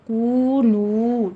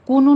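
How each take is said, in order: First: کونو with the و held long for two counts; long vowel. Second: کونو clipped short with no long و; short vowel wrong. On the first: Teacher shows students the long واو in کونو. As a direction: stretch the واو مدہ in کونو slowly. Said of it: "ٹو ٹو count کرنا ہے". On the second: Teacher shows students the wrong short کونو. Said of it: "کونو نہیں کہنا". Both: Shown as a demonstration.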